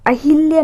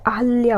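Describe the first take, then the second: First: अहिल्या with 'hil' in the middle; wrong pronunciation. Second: अहल्या with 'hal' in the middle; correct pronunciation. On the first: Teacher showing the mistake, 'a-hil-ya' for अहिल्या. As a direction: use an i after h in अहिल्या. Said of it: "अहिल्या नहीं होता है". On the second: Teacher correcting students, 'a-hal-ya' for अहल्या. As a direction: use a short a after h in अहल्या. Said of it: "अहल्या होता है". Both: Shown as a demonstration.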